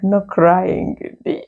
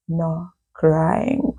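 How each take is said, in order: First: Mocking echo. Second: Bossy clique leader. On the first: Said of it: "I'm like". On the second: Retold or imitated. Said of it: "self-appointed president of the clique is like".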